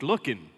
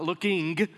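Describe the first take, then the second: First: The word ends in an n without g. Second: The word ends with a clear ng sound. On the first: The speaker calls it right. "you don't put a G on that now" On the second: The speaker calls it wrong. "not looking"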